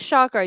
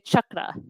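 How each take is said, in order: First: The first syllable does not sound like chuck. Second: The first syllable sounds like chuck. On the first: The speaker calls it wrong. "you don't say chakra" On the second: The speaker calls it right. "you say chakra. ... chakra as in Chuck Norris"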